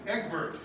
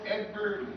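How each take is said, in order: Both takes have the same delivery.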